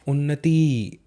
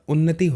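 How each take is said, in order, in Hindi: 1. आखिरी i स्वर लंबा है। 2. आखिरी i स्वर छोटा है। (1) "त में बड़ी की मात्रा है, उन्नति ऐसा नहीं होता" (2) "उन्नति होता है"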